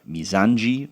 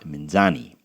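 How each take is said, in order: First: The name has a 'j' sound near the end. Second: The name has no 'j' sound in it. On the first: The speaker calls it right. "the C with the little thing underneath makes the G sound" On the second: The speaker calls it wrong. "not Minzani"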